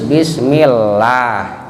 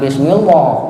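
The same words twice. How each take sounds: First: The l in Allah is light and thin. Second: The l in Allah is heavy and thick. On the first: The speaker calls it right. "Tarkik itu tipis" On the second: The speaker calls it wrong.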